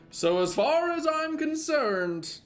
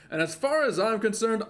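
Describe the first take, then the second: First: "far" stretched slow and high; drawn out and emphatic. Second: Said in the usual way. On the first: Shown as a demonstration. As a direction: lean on "far", drag out "So as far as I'm concerned".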